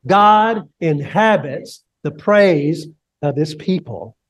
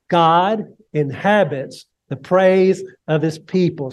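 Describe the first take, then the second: First: Slow and deliberate, each word weighed; like you mean it. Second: Said in the usual way. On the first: Shown as a demonstration. Pastor leading the congregation, said with conviction. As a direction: say it with conviction, slowly. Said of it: "Say it like you mean it". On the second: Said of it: "Say that with me".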